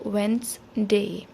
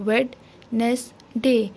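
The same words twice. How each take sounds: First: Wednesday as "wenz-day", in two parts with a silent D; spoken pronunciation. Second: Wednesday as "wed - nes - day", one beat per syllable; clapping out syllables. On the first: Teacher shows how it is spoken, Wednesday as wenz-day. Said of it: "बोलने में इसको बोला जाएगा". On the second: Teacher teaches children by clapping, Wednesday split into wed, nes, day. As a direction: say Wednesday as spelt, in three separated beats. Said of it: "clap के ज़रिए सिखा सकते हैं". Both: Shown as a demonstration.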